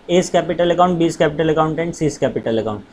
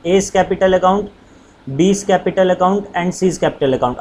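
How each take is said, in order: First: Said in the usual way. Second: Very slow, word by word for writing down; slow dictation. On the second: Shown as a demonstration. Teacher dictating slowly to students writing notes. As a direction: dictate each word so students can copy. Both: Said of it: "आप पूरा पूरा लिख लेना".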